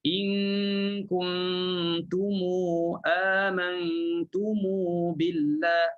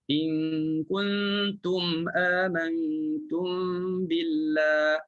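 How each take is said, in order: First: Each m is joined to a long u vowel. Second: Each m ends closed with no vowel after it. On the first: "Bunyikan mu je" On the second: "kita matikan semua mim"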